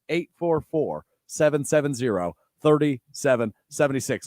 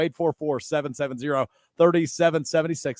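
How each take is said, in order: First: The number is said slowly. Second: The number is said at normal speed.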